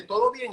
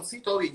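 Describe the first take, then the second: First: Retold concerned question. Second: Softer, restrained reassurance; holding it in. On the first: Doña Estela asks him if all is well, lightly imitated concern. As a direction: lightly imitate a woman checking on someone. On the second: Retold or imitated. Stylist answers the owner while about to scream, quiet and held in. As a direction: pretend all is well, barely holding back a scream. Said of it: "Yo estaba a punto de gritar".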